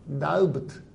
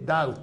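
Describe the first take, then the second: First: The B sound is pronounced in the word. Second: The B sound is left silent in the word. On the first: The speaker calls it wrong. "このB って発音しないのにダウブトとは言わないで" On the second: The speaker calls it right. "ダウトっていうのに"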